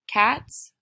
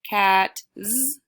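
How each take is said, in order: First: The word ends with a hissing s sound. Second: The word ends with a buzzing z sound. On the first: The speaker calls it right. "That sounds correct" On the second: The speaker calls it wrong.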